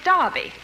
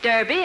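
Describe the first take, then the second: First: It is said the British way, like 'Darby'. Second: It is said the American way, like 'Durby'.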